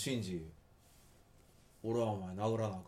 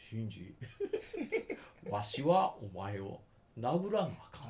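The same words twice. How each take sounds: First: Plain native Kansai reading; real Kansai dialect. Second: Put-on slow, old-style stage Kansai; old comedic Kansai. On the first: Scene: asked how Kansai people really say it, native Kansai. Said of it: "本当の関西弁では…どういうふうに言うんですか". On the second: Scene: demoing the anime's fake old-style Kansai, hammed. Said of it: "藤山寛美系". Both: Shown as a demonstration.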